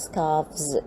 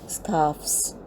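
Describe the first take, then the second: First: The f sound changes to a v sound. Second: The f sound stays unchanged before the s. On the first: It is the morphophonemic plural. "after changing the th into the" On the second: It is the regular plural. "without changing the th into another sound, we simply add the s plural"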